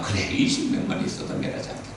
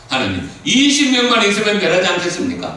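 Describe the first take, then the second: First: Quiet God's reply. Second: High, loud, earnest plea; pleading Abraham. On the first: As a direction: answer softly, almost breathed. God answering Abraham. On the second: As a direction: cry out to God, begging. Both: Acted.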